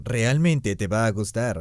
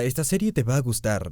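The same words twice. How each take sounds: First: "realmente" stressed, whole line slowed; slow insistent repeat with "realmente" punched; emphatic realmente. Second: Said in the usual way. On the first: Real, not acted. Repeats recommendation, second more emphatic.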